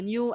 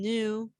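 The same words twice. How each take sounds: First: It is said with a y glide, like 'nyoo'. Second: It is said without a glide, like 'noo'. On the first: "which is in British and American" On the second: "which is in British and American"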